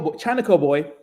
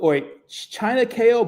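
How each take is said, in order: First: "China Co" with Co said as one syllable; "China Co boy" said smoothly as one name; name as one word. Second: "China K O" with the letters K and O spelled out; "China K O" as China, then K, then O; name spelled out. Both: Shown as a demonstration. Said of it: "is it China K O or China Co?".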